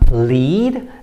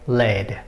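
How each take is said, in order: First: The vowel is not the vowel of 'red'. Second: The vowel is the vowel of 'red'. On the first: It means to go in front of others. "it has the meaning of to so to go in front of others" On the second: It names a heavy metal. "red rhymes with lead"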